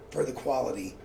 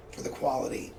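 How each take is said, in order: Both takes have the same delivery.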